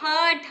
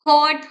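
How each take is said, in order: First: It is said with a standard Hindi accent, 'hat'. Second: It is said with a Bengali accent, like 'hot'. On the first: "but actually वो उसको बोल रहा था कि हट" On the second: "Bengali accent"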